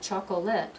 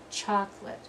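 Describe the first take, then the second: First: The word is said with three syllables. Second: The word is said with two syllables. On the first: The speaker calls it wrong. "It's not chocolate" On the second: The speaker calls it right. "Only two syllables"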